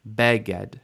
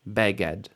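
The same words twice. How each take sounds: First: The stress is on the first syllable. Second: The same.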